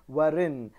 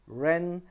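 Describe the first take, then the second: First: A W sound is pronounced before the R. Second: The word starts directly with the R sound. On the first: The speaker calls it wrong. "I'm not saying warin" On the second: The speaker calls it right. "I'm just saying wrong, ren"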